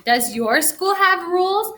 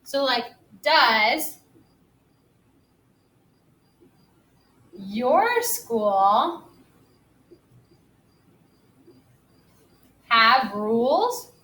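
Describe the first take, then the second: First: "Does your school have rules?" with a higher rising question tune. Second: Slow, each word apart, rising on "does", "your" and "rules"; slow question tune. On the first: Teacher reading the sentence back as a clear question, rising. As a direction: lift the whole line and rise on "rules". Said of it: "I'm asking a question". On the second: Teacher modelling a question for young pupils, slow and rising. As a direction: spell out "So, like, does your school have rules?" slowly, rising on each chunk. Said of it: "I put a question mark at the end 'cause I'm asking a question".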